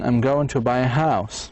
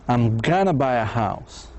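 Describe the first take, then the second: First: 'Going to' is pronounced in full. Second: 'Going to' is reduced to 'gonna'. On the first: "Going to" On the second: "بصير gonna"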